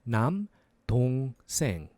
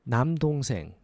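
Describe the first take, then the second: First: It is said slowly. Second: It is said faster.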